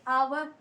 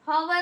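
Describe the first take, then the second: First: The word starts with a vowel, no h. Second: The word starts with an h sound. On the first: The speaker calls it right. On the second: The speaker calls it wrong.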